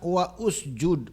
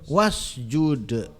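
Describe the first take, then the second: First: The vowel after 'wa' is pronounced separately. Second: The vowel is dropped and 'wa' links on. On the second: "harokat hamzah wasolnya hilang jadi wasjud"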